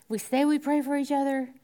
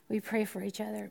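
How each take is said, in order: First: "we" lifted and pushed; stress on we. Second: Softer restatement. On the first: Preacher contrasting saying with doing, stress on "we". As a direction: lean on "we" in "We say we pray". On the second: Preacher restating softly, "pray" stressed. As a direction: say "we pray for each other" softly, as the real thing. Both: Shown as a demonstration.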